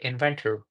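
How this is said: The final R is clearly pronounced. "in case of American"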